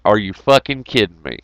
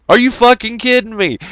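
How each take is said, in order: First: Said in the usual way. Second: Pitched way up in mock outrage; squeaky disbelieving repeat; exasperated disbelief. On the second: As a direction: throw the repeat up high, incredulous.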